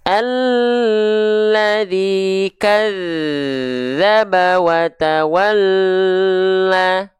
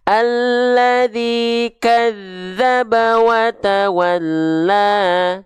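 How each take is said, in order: First: The doubled consonants are held for a long time. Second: The doubled consonants are pressed briefly, not held. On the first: The speaker calls it wrong. "Tahan dua harokat misalnya" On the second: The speaker calls it right. "natural saja, tekan, lafalkan"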